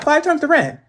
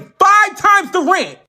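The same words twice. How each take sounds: First: It is said casually, as if nothing. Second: It is said with shocked outrage.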